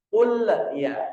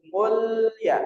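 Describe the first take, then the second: First: The L gets a bouncing echo before ya. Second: The L flows straight into ya, no echo. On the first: The speaker calls it wrong. "Jangan sampai muncul pantulan. Seperti qul, qul ya. Ini udah salah" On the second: The speaker calls it right. "Harus qul ya, langsung masuk"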